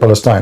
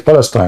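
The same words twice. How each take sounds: First: The word has its English pronunciation. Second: The word has its Arabic pronunciation. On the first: "we don't say Palestine like in English. You say Palestine" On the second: "in reality in Arabic you say Palestine"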